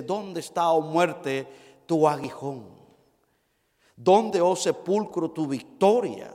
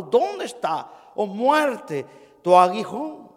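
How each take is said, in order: First: Said in the usual way. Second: "¿Dónde está, oh muerte, tu aguijón?" slow start, growing louder to "tu aguijón"; emphatic rhetorical question. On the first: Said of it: "Primera de Corintios ... dice". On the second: Shown as a demonstration. Preacher thunders the apostle's question at the congregation. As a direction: build "¿Dónde está" slowly into a loud "tu aguijón". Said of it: "una pregunta del apóstol Pablo".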